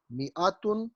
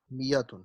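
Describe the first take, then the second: First: میاتن as mi-atun, with a catch after mi and rising at the end; hamza kept. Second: میاتن as mi-yatun, smooth y glide and falling end; hamza turned ya. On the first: Teacher contrasting both readings, hamza sounded first. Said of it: "دونوں طریقے ٹھیک ہیں". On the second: Teacher completing the contrast, ya in place of hamza. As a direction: glide through میاتن and let it drop. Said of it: "تو یہ بن گیا میاتن". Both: Shown as a demonstration.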